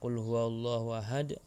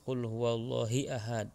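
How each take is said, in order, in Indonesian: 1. Vokal setelah Allah adalah 'u'. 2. Vokal setelah Allah adalah 'i'.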